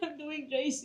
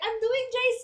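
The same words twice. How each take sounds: First: It is said in a sad, crying tone. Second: It is said in a cheerful, upbeat tone. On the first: The speaker is unhappy about the next stage. The speaker calls it wrong. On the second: The speaker looks forward to the next stage. The speaker calls it right. "You should be like"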